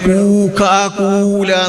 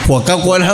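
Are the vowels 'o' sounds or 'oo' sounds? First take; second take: oo; o. First: The vowels are long 'oo' sounds. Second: The vowels are 'o' sounds. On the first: This is how it is read from Arabic script. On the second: This is the usual pronunciation.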